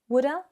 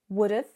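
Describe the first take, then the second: First: The 'have' shrinks to a plain 'a' vowel. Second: The 'have' shrinks to a short 'v' sound. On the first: "It can become even weaker, particularly in more informal, relaxed situations" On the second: "So it sounds something like this"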